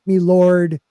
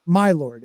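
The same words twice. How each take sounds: First: "Me lord" with ME for "my"; common folk's pronunciation. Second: "My lord" with a full MY; educated pronunciation. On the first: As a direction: say "Me lord" like common folk, first word rhyming with "see". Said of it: "okay, you have common folk". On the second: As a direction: say "My lord" properly, first word rhyming with "eye". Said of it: "the educated that would say". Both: Shown as a demonstration.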